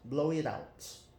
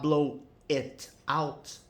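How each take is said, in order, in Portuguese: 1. As palavras se juntam, com sons ligados. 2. Cada palavra é dita separadamente, sem ligação. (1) "você sai emendando os sons" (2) "ao invés de você falar blow it out"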